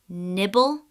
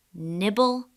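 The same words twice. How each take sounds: The two takes are said the same way.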